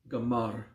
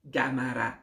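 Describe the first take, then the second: First: The final vowel is clipped to a faint uh. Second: The final a vowel is pronounced clearly. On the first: The speaker calls it right. "It's a almost mute uh. ... just crunch it a bit" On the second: The speaker calls it wrong. "because of your accent and your culture, you will say Gamara"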